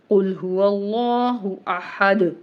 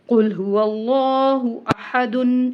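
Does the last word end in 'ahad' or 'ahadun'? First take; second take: ahad; ahadun. First: The last word ends plainly, without the -un ending. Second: The last word keeps the -un ending, linked onward. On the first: The verse ends here with a stop. "यहाँ पर हम रुक गए हैं, हमने सांस तोड़ दिया है" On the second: The verse is joined to the next one. "अगर हम दो आयतें मिला रहे हैं तो हम कैसे पढ़ेंगे?"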